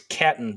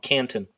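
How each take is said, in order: First: The first syllable has no n sound. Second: The first syllable has an n sound. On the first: The speaker calls it right. "It's Catton, so C-A-T-O-N" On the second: The speaker calls it wrong. "I've been pronouncing this gentleman's name wrong"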